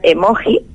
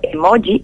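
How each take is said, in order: First: The word has an adapted, native Spanish pronunciation. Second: The word has an unadapted, foreign pronunciation. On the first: It is written in plain type as an adapted word. "La grafía sería en redonda, normal" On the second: It is written in italics as a foreign word. "sería un extranjerismo que todavía no se ha adaptado a nuestra lengua"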